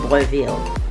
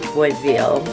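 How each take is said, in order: First: The name is said with a French pronunciation. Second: The name is said with an English pronunciation. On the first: "if I want to say it in French" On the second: "I hope I'm saying it right"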